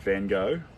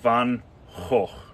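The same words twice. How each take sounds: First: It is said with an American accent. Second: It is said with a Dutch accent.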